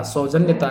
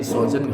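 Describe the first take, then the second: First: सौजन्यता as "saujanya-taa"; extra taa ending. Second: सौजन्य as "saujanya"; ends in nya. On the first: Teacher showing the mistake, सौजन्यता with extra suffix. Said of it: "सौजन्यता नहीं". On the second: Teacher correcting the word, सौजन्य without "taa". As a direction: stop सौजन्य after "nya". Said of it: "सौजन्य होगा". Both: Shown as a demonstration.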